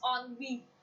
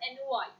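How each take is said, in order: First: The word begins with an 'on' sound. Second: The word begins with an 'en' sound. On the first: The speaker calls it right. "The pronunciation is not N Y, it's on V" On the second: The speaker calls it wrong. "most of the time people say the word N Y"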